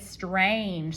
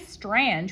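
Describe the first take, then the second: First: The A is a long vowel sound. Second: The A sounds like the vowel in 'and'. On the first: The speaker calls it right. "we say strange" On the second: The speaker calls it wrong. "it's usually a whiny A, but we don't say"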